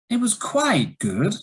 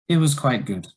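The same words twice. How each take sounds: First: The voice rises, then falls, then rises again. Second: The voice falls in pitch across the phrase. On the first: There is some disagreement or a negative is coming. "it was a rise, fall, rise" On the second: There is no enthusiasm and something may be wrong. "that was a falling intonation"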